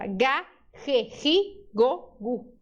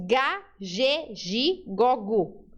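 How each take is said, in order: First: "ge, gi" with a raspy throat sound; "Ga, ge, gi, go, gu" with ge and gi rasped like he, hi; Spanish series, cat-hiss in "ge, gi". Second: "ge, gi" with a zh sound; Portuguese series, buzzing "ge, gi". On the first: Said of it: "Em espanhol é a mesma coisa". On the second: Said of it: "É igualzinho ao português". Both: Shown as a demonstration.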